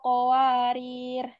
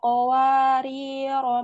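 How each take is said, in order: First: The word ends on a bare consonant. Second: The word ends with a long final vowel. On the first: The reading stops at this word. "bila waqaf dibaca qawarir" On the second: The reading continues into the next word. "ro dibaca panjang"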